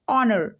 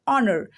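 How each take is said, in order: No difference in how they are said.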